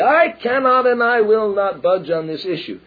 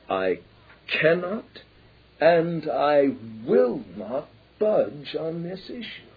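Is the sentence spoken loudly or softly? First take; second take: loudly; softly. First: The sentence is spoken very loudly. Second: The sentence is spoken softly with quiet intensity. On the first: The speaker is not convincing. The speaker calls it wrong. "very loudly" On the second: The speaker shows strength and determination. The speaker calls it right. "in a relatively soft voice"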